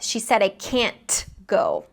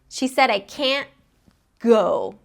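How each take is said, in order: First: The t in can't is fully released. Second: The t in can't is held, not released. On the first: "Instead of" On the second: "instead of releasing it, I just transition immediately into the next sound"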